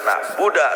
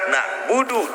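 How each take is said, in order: First: The word ends with an 'a' vowel. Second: The word ends with a 'u' vowel. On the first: The speaker calls it wrong. "tetep haram ngarobah harokat Quran" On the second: The speaker calls it right. "nak budu dibaca nak budak"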